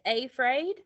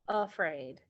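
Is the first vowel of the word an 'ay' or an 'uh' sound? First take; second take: ay; uh. First: The first vowel is a full 'ay' sound. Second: The first vowel is a weak 'uh' sound. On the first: The speaker calls it wrong. "Is that how we normally say it?" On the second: The speaker calls it right. "we normally pronounce the first a ... as the schwa sound for uh"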